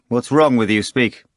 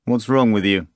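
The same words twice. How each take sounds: First: Louder, pressing repeat of "What's wrong with you"; impatient repeated demand; insistent repeat. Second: Said in the usual way. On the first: A narrator's reading. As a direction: push harder on "wrong" the second time. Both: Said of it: "Pilate repeated".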